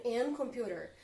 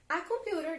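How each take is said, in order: First: "An computer" said as the deliberately wrong form, "an" run into "computer"; wrong article demo. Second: Said in the usual way. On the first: Shown as a demonstration. Teacher demonstrating the wrong article to the students. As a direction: show the class how odd "An computer" sounds. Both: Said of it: "Olha como ficaria estranho".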